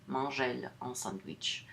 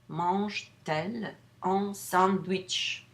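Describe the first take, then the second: First: No t sound links the verb and elle. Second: A t sound links the verb and elle. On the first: The speaker calls it wrong. "Otherwise, you have to say mange elle" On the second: The speaker calls it right. "we put that T, euphonic T"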